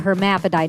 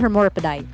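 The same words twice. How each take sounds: First: The word has its usual standard pronunciation. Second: The word is garbled, sounding like a superhero name. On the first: The speaker calls it right. "it's a hermaphrodite" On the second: The speaker calls it wrong. "not a hermaphrodite"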